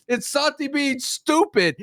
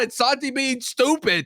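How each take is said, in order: First: Slow repeat with "stupid" leaned on; stress on stupid. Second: Said in the usual way. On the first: Shown as a demonstration. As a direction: drag it out and hit "stupid".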